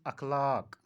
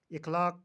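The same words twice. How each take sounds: First: अखलाक opening on a short a; अखलाक with a as first vowel; correct pronunciation. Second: इखलाक opening on a short i; इखलाक with i as first vowel; mispronunciation. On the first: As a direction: say अखलाक as akh-laak. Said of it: "सही तलफ़ुज़ अखलाक". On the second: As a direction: say इखलाक as ikh-laak. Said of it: "इखलाक का सही तलफ़ुज़". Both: Shown as a demonstration.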